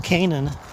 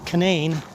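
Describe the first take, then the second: First: It uses the usual biblical pronunciation. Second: It uses the local West Virginia pronunciation. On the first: This is how the biblical name is usually said. "the biblical pronunciation" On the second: This is how locals say the valley's name. "that's how they pronounce it here"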